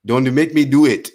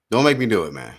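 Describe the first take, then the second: First: Put-on Nigerian accent. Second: Said in the usual way. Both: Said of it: "my Nigerian voice".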